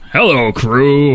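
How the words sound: It is spoken in a put-on deep voice. It imitates Morgan Freeman. "I could just do a deep voice"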